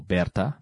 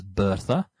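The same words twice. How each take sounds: First: Bertha said "BEHR-ta"; local pronunciation. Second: Bertha said "BUR-tha"; English pronunciation. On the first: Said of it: "like we sometimes like to say". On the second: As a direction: Bertha with an "ur" vowel and th. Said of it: "in terms of pronunciation". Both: Shown as a demonstration.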